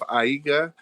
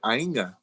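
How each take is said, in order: First: The g follows the vowel without an n sound. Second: An n sound comes right before the g. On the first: The speaker calls it wrong. "instead of Aiga" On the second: The speaker calls it right. "pretend like there's an N right before it"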